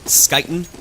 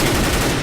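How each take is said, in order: First: The name begins with an sk sound. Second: The name begins with an h sound. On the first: The speaker calls it wrong. "it's not Skyten" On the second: The speaker calls it right. "as far as I've been told, it's Huten"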